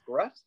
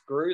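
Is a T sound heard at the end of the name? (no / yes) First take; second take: yes; no. First: The name ends with an audible T sound. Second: The name ends without any T sound. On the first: The speaker calls it wrong. "Everyone thinks it's" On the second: The speaker calls it right. "My last name's got a silent T"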